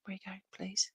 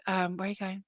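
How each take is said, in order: First: Whispered plea. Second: Said in the usual way. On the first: Real, not acted. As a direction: breathe the question, unvoiced. Repeats question in a whisper.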